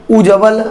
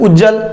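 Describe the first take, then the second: First: उज्जवल said ud-ja-val with the va sound; right spelling read. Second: उज्जल said short as ud-jal with no व; wrong spelling read. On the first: Teacher showing exam students the right form, ujjaval with va. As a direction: read उज्जवल with a clear va in the middle. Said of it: "उज्जवल होता है". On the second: Teacher showing exam students the wrong form, ujjal without va. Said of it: "ऐसा नहीं होता है". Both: Shown as a demonstration.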